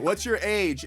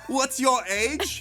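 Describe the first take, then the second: First: It is said in a plain, normal voice. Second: It is said in a Borat impression.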